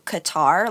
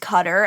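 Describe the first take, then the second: First: It does not sound like the word cutter. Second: It sounds like the English word cutter. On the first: The speaker calls it right. "as opposed to Qatar" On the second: The speaker calls it wrong. "a lot of journalists think that it's pronounced cutter"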